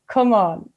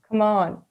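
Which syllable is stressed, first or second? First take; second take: first; second. First: The stress is on the first syllable. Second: The stress is on the second syllable. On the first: The speaker calls it right. "So I was supposed to say" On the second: The speaker calls it wrong. "you did Munster"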